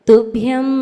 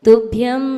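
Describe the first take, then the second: No difference in how they are said.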